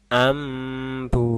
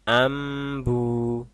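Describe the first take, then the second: No difference in how they are said.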